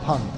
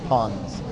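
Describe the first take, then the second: First: The word ends without any s sound. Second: The word ends with an audible s sound.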